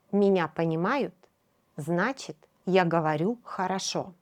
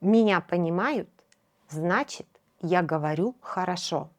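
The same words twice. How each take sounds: The two takes are said the same way.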